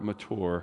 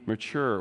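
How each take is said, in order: First: The word has a formal, academic pronunciation. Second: The word has a casual, everyday pronunciation.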